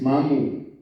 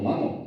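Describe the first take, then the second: First: The word ends in an u vowel. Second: The word ends in an o vowel. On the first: The speaker calls it right. "es mamu" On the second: The speaker calls it wrong. "también están mal, oímos muy mal"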